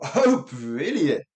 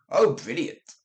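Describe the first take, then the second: First: It sounds flat, sarcastic and displeased. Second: It sounds genuinely pleased and enthusiastic. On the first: Things are terrible. "or absolutely terrible" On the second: Things are great. "that can mean that's great"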